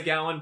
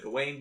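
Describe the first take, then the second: First: "Gowan" said GOW-un; "Gowan" as GOW-un, weight up front; own pronunciation. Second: "Gawain" rhyming with pain; "Gawain" with its ending like "pain"; Tolkien's pronunciation. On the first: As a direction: say "Gowan" with a first syllable like "cow". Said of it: "I say Gowan". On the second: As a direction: say "Gawain" as guh-WAYN. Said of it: "he rhymes it with pain". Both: Shown as a demonstration.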